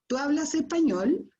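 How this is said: It is said with question intonation. The speaker is asking something.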